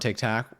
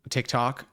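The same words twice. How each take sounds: First: The second syllable has an 'a' vowel. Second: The second syllable has an 'o' vowel. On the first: The speaker calls it wrong. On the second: The speaker calls it right.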